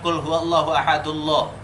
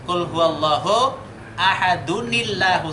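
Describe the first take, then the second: First: Ahad runs straight into Allahu without an n. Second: An added ni sound links ahad to Allahu. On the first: The speaker calls it wrong. "bacanya bukan" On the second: The speaker calls it right. "tapi harus dibaca dengan ni"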